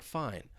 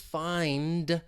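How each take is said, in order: First: The final d sound is dropped entirely. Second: The final d sound is clearly released. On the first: "it may just sound like fine" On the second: "I'm pronouncing that d sound at the end and releasing it"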